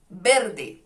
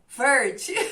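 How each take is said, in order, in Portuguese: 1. É dita em espanhol, com som de b. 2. É dita com sotaque caipira brasileiro. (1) "o verde aqui você fala verde, verde, porque o V se lê B" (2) "Eu sou caipira, tá? Então eu falo verde"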